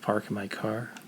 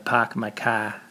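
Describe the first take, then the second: First: The R sounds are pronounced. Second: The R sounds are dropped. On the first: "instead of park my car" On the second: "a funny accent where they don't really say R's"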